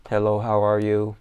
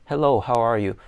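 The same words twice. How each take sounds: First: "Hello, how are you?" read word by word, lower and louder; stiff script reading. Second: Said in the usual way. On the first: Shown as a demonstration. Teacher mocking reading the script literally, stiff and low. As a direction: read it like a robot reading a book. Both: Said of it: "Nobody reads like that".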